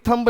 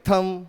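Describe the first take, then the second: First: The final b is pronounced. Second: The final b is silent. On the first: The speaker calls it wrong. "थंब नहीं" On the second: The speaker calls it right. "बी silent होता है"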